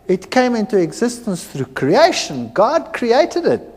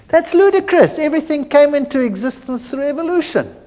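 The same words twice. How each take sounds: First: Said in the usual way. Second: Higher, fast, dismissive scoff; scoffing retort. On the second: Retold or imitated. Lecturer scoffing at a creationist colleague, high and quick. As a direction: brush it off as ludicrous. Scoffing evolutionist in retold debate.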